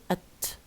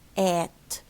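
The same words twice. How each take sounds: First: The word is reduced with a weak vowel. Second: The word is full with a clear vowel. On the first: "weak form at" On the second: "If you want to use the strong form at the end, okay, say at"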